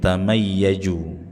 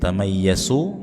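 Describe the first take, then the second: First: The final consonant sounds like a j. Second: The final consonant sounds like an s. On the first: "atau mirip jim" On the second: "Jangan dibaca mirip sin"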